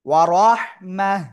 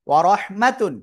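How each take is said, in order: First: The word ends with a silent-vowel 'h' sound. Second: The word ends with a full 'tun' ending. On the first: The reader stops on this word. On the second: The reading continues without stopping.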